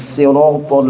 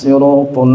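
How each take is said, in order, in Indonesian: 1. Bunyi s pertama ringan dan polos. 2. Bunyi s pertama berat dan emfatik.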